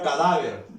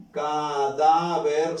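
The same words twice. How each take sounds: First: Said in the usual way. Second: "cadáver" slowly split as ca, DÁ, ver; "cadáver" in three slow beats, strongest on DÁ; separated syllables. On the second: Shown as a demonstration. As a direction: draw out each syllable of "cadáver", stressing DÁ. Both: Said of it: "Separamos aquí".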